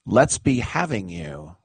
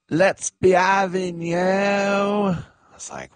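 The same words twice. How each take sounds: First: Said in the usual way. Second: High, drawn-out imitation of a crowd rally. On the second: Host imitates famous cook to a stadium crowd, high rallying call. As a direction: call it out high and stretched, mimicking her. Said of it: "she got on the microphone to the crowd".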